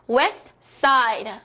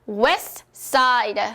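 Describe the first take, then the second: Both takes have the same delivery.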